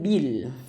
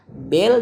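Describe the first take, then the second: First: The vowel after b is a full clear i. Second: The vowel after b sounds weak, like e. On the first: The speaker calls it right. "Bel dengan bil" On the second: The speaker calls it wrong. "Bel dengan bil"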